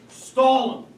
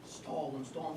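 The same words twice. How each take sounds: First: Exasperated loud command. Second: Urgent hushed aside; hushed urging. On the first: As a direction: stall 'em barked out loud and hard. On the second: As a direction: stall 'em said low and hushed, almost under the breath. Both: Acted. Urging wife while she's on phone.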